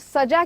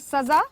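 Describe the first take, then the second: First: The middle consonant is a j sound. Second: The middle consonant is a z sound. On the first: It means decorated. "सजाना के लिए हम प्रयोग करते हैं" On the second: It means punishment. "सजा यानी कि दंड।"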